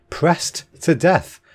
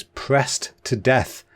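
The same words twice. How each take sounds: First: Slow, higher, baffled repeat; incredulous. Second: Said in the usual way. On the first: Real, not acted. Podcaster reacting to witch trial fact, incredulous. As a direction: draw out each word in disbelief.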